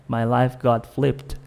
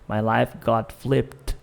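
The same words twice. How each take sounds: The two takes are said the same way.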